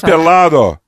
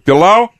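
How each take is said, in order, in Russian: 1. Звук д в середине произносится. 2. Звук д в середине опускается. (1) "это пеладо" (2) "Если проглотить «д» по-латиноамерикански или андалусийски, то будет пелау"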